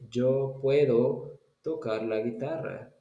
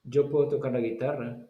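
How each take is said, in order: First: The sentence is spoken slowly, word by word. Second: The sentence is spoken quickly, words run together. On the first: The speaker calls it wrong. "So that is very slow. In Spanish, you don't say it like that" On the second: The speaker calls it right. "So you say it quickly"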